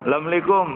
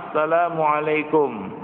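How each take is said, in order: First: The greeting is shortened, with syllables dropped. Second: The greeting is said in full, every syllable clear. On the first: The greeting is said carelessly, without sincerity. The speaker calls it wrong. "mengucapkan salam dengan lafal yang tidak lengkap" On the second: The greeting is a sincere prayer. The speaker calls it right. "harus diucapkan dengan sempurna"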